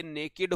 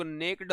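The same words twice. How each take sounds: First: "नेकेड" in two syllables, vowel between k and d; correct two-syllable pronunciation. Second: "नेक्ड" as one syllable, k straight into d; common mispronunciation. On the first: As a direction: sound out the second syllable in "नेकेड". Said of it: "लेकिन ये नेकेड होता है". ("नेकेड" को दो हिस्सों में, "केड" साफ़ बोलें) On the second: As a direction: leave out the vowel between k and d in "नेक्ड". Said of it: "by mistake लोग नेक्ड बोल देते हैं". ("नेक्ड" को क और ड जोड़कर बोलें) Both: Shown as a demonstration.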